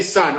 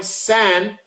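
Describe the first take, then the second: First: "son" with an UH vowel; pronouncing it as son. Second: "San" with a clear short A; pronouncing San with A. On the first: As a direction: say "son" just like "sun". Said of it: "which people say son all the time". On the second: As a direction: say "San" to rhyme with "can". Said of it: "which people say son". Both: Shown as a demonstration.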